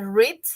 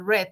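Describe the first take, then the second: First: The word sounds like 'reed'. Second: The word sounds like 'red'. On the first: The reading happens now. "en presente se dice read" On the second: The reading happened in the past. "en pasado se dice red, ¿no? Como el color red"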